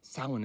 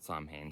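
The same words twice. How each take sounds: First: It has the traditional Gaelic pronunciation. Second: It has an anglicized, letter-by-letter pronunciation. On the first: "the proper way to pronounce it in the original Celtic" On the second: "it looks like Samhain. I want to pronounce it Samhain"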